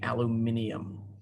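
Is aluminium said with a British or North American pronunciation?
British. It is said with a British pronunciation. "people in the U K would say"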